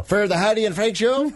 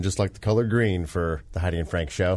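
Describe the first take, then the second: First: High, hammed-up Irish lilt, rising at the end; jokey stage-Irish echo; mock Irish accent. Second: Said in the usual way. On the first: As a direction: fake Irish brogue turned into a question. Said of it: "Our horrible Irish accent".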